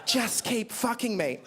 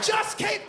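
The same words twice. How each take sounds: First: Slow, hushed mock mum; mum's whispered plea. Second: Son's horrified high yell of "Just keep"; outraged shout. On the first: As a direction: draw it out slowly, lightly voicing mum. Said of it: "And then my mum said". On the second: Retold or imitated. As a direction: shout it back in disbelief. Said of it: "that's my mum".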